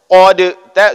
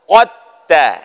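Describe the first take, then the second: First: The d is pronounced separately before the t. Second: The d is dropped and merged into the t. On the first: The speaker calls it wrong. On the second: The speaker calls it right. "hilangkan dal, langsung masuk ke dalam ta"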